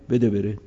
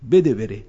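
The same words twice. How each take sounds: First: Lightly voiced household command. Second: A louder, firm hand-it-over order; firm household command. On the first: Preacher retelling the family giving the meal again, mild matter-of-fact. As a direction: say it almost plainly, only a hint of the command. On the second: Retold or imitated. Ahl al-Bayt telling someone to give their meal away, louder and firm. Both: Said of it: "آن زود فرصت و غنیمت شو بردن".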